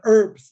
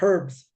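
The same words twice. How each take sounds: First: The H at the start is silent. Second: The H at the start is pronounced. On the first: "silent H. ... people in the States will say" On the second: "not herbs"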